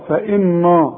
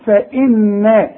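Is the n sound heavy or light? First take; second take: heavy; light. First: The n sound is heavy and thick. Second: The n sound is light and thin. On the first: The speaker calls it wrong. "النون ممكن تضيع منك وتفخم، تقول فإن الله" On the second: The speaker calls it right. "النون دائما مرققة"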